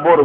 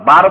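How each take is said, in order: First: "বোর" with a rounded "o" vowel; rounded-o reading. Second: "বার" with an open "aa" vowel; long-a reading. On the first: Teacher asking which vowel to read, rounded o in "বোর". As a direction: say "বোর" with o, as local readers would. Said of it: "আমাদের দেশের মানুষ বড় আলিফ থাকলে বোর পড়বে". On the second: Teacher asking which vowel to read, open aa in "বার". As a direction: say "বার" with aa, as if alif were added. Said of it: "বার বলবেন না বোর বলবেন?". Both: Shown as a demonstration.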